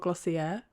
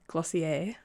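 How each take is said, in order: First: The word ends in an r sound. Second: The word ends in an ay sound. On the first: "with an R on the end" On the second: "with an A on the end"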